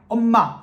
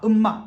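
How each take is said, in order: First: The first vowel is an open 'eo' sound. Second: The first vowel is a closed 'eu' sound. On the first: The speaker calls it right. "엄마를 음마라고 발음하고" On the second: The speaker calls it wrong. "엄마를 음마라고 발음하고"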